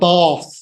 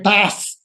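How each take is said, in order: First: It is said in a standard, non-Lancashire accent. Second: It is said in a broad Lancashire accent.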